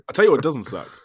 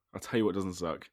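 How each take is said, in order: First: Loud proclamation. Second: Said in the usual way. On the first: Acted. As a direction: call it out big. Repeats the line, first take loud.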